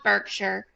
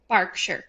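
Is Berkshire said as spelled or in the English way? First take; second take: as spelled; English way. First: The name is sounded out as it is spelled. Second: The name is said with its English pronunciation. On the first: The speaker calls it wrong. "It's spelled Berkshire" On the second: The speaker calls it right. "It is pronounced Berkshire"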